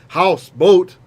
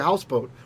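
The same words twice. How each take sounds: First: Both syllables carry a stress. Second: Only the first syllable is stressed. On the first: The speaker calls it wrong. "We don't say houseboat. We lose one of the accents" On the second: The speaker calls it right. "we just have one accent on it. We say houseboat"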